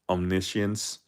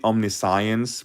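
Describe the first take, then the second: First: The ending does not sound like science. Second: The ending sounds like the word science. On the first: The word is treated as one word. "since it's like a, a one word, so that's probably why everyone's calling it like omniscience" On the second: The word is treated as two parts. "if it's a split word, probably omniscience"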